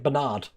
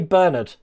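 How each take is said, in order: First: It is said the American way. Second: It is said the British way.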